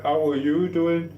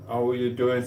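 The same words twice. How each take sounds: First: Slow, high-pitched drawn-out question; effusive greeting. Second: Said in the usual way. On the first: Real, not acted. Streamer asks after a returning viewer, high drawn-out greeting. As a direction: stretch it out high, rising at the end.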